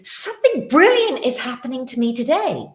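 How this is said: It sounds loud and full of conviction. The speaker believes it will happen. The speaker calls it right. "Just say it with conviction. ... So as loudly"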